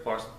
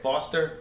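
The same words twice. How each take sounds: First: Foster. with a rounded New York FOR vowel; Foster. back in New York accent, FOR-s. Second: Foster? with the open FAH vowel, FAH-ster; standard foster. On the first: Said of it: "my New York accent". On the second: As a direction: try Foster? the general American way, FAH-ster. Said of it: "how do you say it?". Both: Shown as a demonstration.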